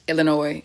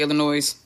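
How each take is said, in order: First: The final s sound is silent. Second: The final s sound is pronounced. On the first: The speaker calls it right. "Illinois is how you say it" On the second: The speaker calls it wrong. "When I was a kid, I used to say Illinois. I didn't know no better"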